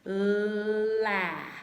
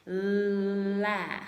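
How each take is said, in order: First: The two sounds glide together quickly into one. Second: The two sounds glide together quickly into one.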